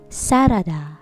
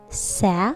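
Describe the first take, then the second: First: The word is said with three syllables. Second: The word is said with two syllables. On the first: The speaker calls it wrong. "Sarada has three syllables" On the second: The speaker calls it right. "Two syllable word"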